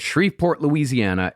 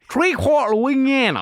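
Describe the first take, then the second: First: Each syllable is said clearly and fully. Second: The syllables are slurred together in a drawl. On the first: The speaker calls it wrong. "can you say it correctly?" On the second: The speaker calls it right. "You don't say any letters"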